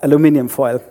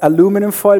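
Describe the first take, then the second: First: It is said with a British pronunciation. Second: It is said with an American pronunciation. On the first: This is the form English people understand. "Engländer verstehen durchaus" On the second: This is the form to use with Americans. "mit Amis, bitte"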